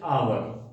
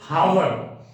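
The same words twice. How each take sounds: First: The word begins with a vowel, no H. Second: The word begins with an audible H sound. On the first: The speaker calls it right. "We say hour" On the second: The speaker calls it wrong. "No one says hour"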